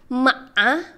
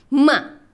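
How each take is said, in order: First: The pitch dips down then rises. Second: The pitch sounds sharp, like anger. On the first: "tiga tuh kayak V" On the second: "yang keempat tuh kayak orang marah"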